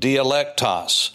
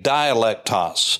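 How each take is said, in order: First: The first syllable has a short i vowel. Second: The first syllable has a long i vowel.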